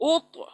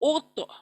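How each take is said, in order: Both takes have the same delivery.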